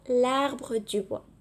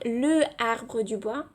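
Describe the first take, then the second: First: The article's vowel is dropped and joined on. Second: The article is said fully before the vowel. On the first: The speaker calls it right. "On dit plutôt" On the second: The speaker calls it wrong. "On ne peut pas dire"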